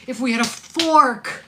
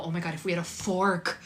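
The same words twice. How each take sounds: First: Louder and slower, leaning on "fork"; emphatic loud repeat. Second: Said in the usual way. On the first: Real, not acted. Host repeats the viewer's joke as a loud punchline. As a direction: stretch out "If we had a fork" like a punchline.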